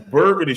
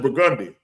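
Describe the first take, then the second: First: It uses the common pronunciation of the word. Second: It uses the New Orleans local pronunciation. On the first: An outsider would say it this way. The speaker calls it wrong. "you gonna go, that's Burgundy Street" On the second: A local would say it this way. The speaker calls it right. "No, bitch, that's Burgundy. That's what we gonna tell you"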